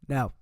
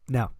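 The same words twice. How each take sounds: No difference in how they are said.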